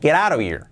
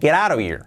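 First: The words run together in one linked chunk. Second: The same.

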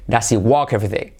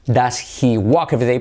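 First: Said quickly, the h of 'he' is dropped. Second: The h of 'he' is clearly pronounced.

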